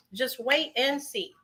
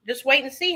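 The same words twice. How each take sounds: First: Slower and softer, leaning on wait; slow soft repeat. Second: Said in the usual way. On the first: Shown as a demonstration. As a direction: draw out "wait" in a hushed, slow promise.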